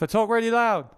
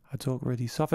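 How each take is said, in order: First: Much louder and higher. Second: Speaking very softly. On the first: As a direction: belt it out loudly. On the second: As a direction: drop to a soft murmur. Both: Shown as a demonstration.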